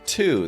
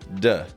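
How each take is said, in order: First: It is said fully, with a clear t and oo. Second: It is reduced, with a soft d and schwa. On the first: "they don't often sound like to" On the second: "They often sound like duh"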